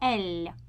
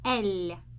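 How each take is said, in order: First: The L is pronounced very softly. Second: The same.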